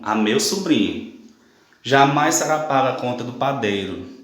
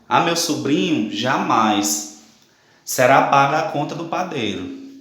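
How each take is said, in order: First: There is a pause before "jamais". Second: There is a pause after "jamais".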